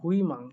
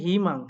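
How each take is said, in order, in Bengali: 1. প্রথম সিলেবলটির উচ্চারণ 'hui'। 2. প্রথম সিলেবলটির উচ্চারণ 'hi'। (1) "উচ্চারণ কথা হওয়ার কথা হয় হুসু রস্বই হুই" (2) "কিন্তু এটার উচ্চারণ হবে হিমাং"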